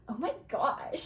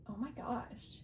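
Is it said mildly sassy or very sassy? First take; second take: very sassy; mildly sassy. First: It is said with exaggerated sass. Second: It is said with some sass.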